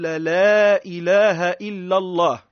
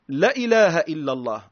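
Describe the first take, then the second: First: The first vowel is drawn out long. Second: The first vowel is cut short. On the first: It denies that any god exists besides God. The speaker calls it right. "النطق بها هو أن نقول" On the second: It seems to affirm that another god exists. The speaker calls it wrong. "يجي لك اللا اللولانية ويقصرها"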